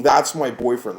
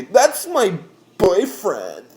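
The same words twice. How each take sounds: First: Said in the usual way. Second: High, drawn-out mock girl wail; mocking whiny girls. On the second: Driver mimics girls leaning into window, whiny mockery. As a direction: stretch it out slow and high, mimicking her.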